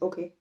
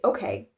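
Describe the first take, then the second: First: It is pronounced lightly, in a German way. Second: It is pronounced strongly, in an American way. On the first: "in German, it's kind of just like not pronounced as strongly" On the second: "especially in American English, we'd say okay. Like you pronounce it very strongly"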